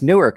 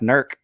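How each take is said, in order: First: The name sounds like 'new-ark'. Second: The name sounds like 'nurk'. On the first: This is how outsiders say it. The speaker calls it wrong. "oh, that's Newark" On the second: This is how locals say it. The speaker calls it right. "not in Ohio, it's not. That's Nurk"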